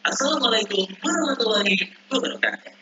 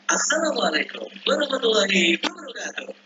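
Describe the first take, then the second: First: The pitch starts high, then falls at the end. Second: The pitch dips first, then rises at the end. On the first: It closes the event. "Close down itu dari atas kemudian dia menurun nadanya. Itu untuk menutup" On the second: It opens the event. "Itu untuk membuka. ... close up, itu dia dari awal menurun kemudian naik"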